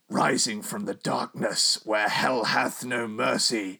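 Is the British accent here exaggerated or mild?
mild. It is read with a mild, everyday accent.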